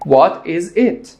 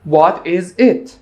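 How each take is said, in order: Both takes have the same delivery.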